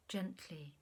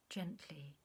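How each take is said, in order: Both takes have the same delivery.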